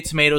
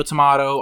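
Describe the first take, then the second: First: "tomato" as tuh-MAY-toe; long "ay" in "tomato"; long-A pronunciation. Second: "tomato" as tuh-MAH-toe; ah pronunciation. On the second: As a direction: open "ah" in "tomato". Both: Retold or imitated. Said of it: "he's like".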